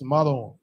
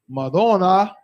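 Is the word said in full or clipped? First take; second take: clipped; full. First: The word is said with syllables dropped. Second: The word is said with all its syllables. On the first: "they just drop off syllables" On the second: "The word that they're saying is actually Madonna"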